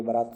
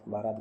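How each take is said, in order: First: "बारात" with a short first vowel, "baraat"; correct pronunciation. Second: "बारात" with a long first vowel, "baaraat"; wrong pronunciation. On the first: Teacher gives students the pure form, short first vowel. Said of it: "ये बारात शुद्ध". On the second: Teacher rejects a common student error, long first vowel. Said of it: "गलत". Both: Shown as a demonstration.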